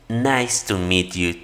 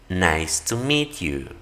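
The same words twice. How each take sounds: The two takes are said the same way.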